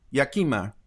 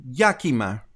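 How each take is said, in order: First: Yakima with an open first a, like "yacht"; testing Yakima with a broad ah up front; unsure pronunciation try. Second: Yakima with a flat first a, like "yak"; testing Yakima with the cat vowel up front; unsure pronunciation try. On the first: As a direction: say Yakima as YAH-kih-muh, first a as in father. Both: Shown as a demonstration. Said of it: "I don't know if where the accent goes".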